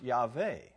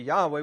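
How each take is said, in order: First: The middle consonant is a v made with lip and teeth. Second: The middle consonant is a w made with both lips. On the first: This is the modern Hebrew pronunciation. "in the modern Hebrew, it would probably better pronounce Yahweh" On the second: This is the early biblical pronunciation. "The early biblical pronunciation appears to be Yahweh with a labial labial"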